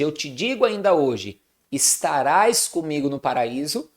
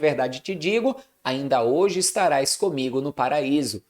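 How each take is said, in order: First: The pause comes after 'ainda hoje'. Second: The pause comes before 'ainda hoje'.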